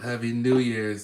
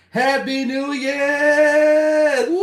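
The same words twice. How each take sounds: First: Said in the usual way. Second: High, loud, drawn-out cheer; new year countdown crowd. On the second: Real, not acted. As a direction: belt it out at midnight. Midnight celebration cheer.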